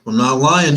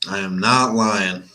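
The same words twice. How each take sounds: First: Said in the usual way. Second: Slow, NOT stressed hard. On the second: Real, not acted. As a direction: lean on the word NOT.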